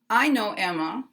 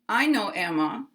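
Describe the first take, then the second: No difference in how they are said.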